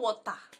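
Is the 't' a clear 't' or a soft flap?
soft flap. The t in the middle is a soft flap like a d. The speaker calls it wrong. "not water ... like you're speaking in the American tongue"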